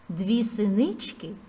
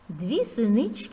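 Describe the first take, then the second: First: It is spoken at a slower pace. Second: It is spoken at a normal pace.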